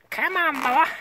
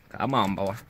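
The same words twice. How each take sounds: First: High, squeaky call. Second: Low, deep call. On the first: Same words later said deep. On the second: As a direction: drop the voice way down. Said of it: "my voice is really deep". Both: Pretend.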